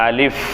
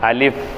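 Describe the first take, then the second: No difference in how they are said.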